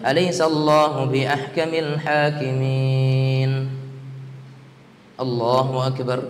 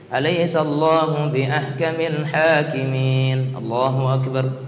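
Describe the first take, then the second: First: There is a pause before Allahu Akbar. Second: Allahu Akbar follows with no pause.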